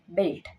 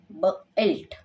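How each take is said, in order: First: "बेल्ट" said as one smooth word, belt; blended word. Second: "ब एल्ट" said as two parts, ब then एल्ट; split blend. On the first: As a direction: join the parts into one word. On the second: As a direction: break the word into ब and एल्ट. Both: Shown as a demonstration. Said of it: "तो यहाँ पे फिर हो जाएगा".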